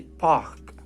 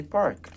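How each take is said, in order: First: Park without the R, long pahk; British park. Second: Park with a clear American R, parrk. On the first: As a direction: drop the R in park, British style. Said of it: "in British we say park". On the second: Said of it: "In American we say park". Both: Shown as a demonstration.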